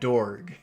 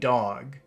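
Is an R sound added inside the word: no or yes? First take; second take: yes; no. First: The word is said with an added R sound. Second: The word is said without an R sound. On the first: "he's calling it a dorg" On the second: "He's saying dog"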